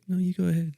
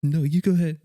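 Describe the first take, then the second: First: High-pitched courteous insisting; polite lady imitation. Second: Raised, firmer imitated insisting; insistent truck driver. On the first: Lady yielding to a truck, high imitated politeness. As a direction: put it up high, politely deferring. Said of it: "the lady's like". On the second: Truck driver refusing to go first, mock insistence. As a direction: insist back in a higher voice. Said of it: "the truck's like".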